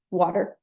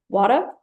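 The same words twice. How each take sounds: First: "water" with a clear R at the end; R pronounced. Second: "water" with the final R dropped, like "wata"; New York R-drop. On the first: Lecturer shows the R-ful form of water. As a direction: say "water" sounding the final R, like "wat-er". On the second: Lecturer demos the R-dropping New York version. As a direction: say "water" the Bronx way, no R at the end. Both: Shown as a demonstration. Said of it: "drop the pronunciation of the, uh, word final R in water".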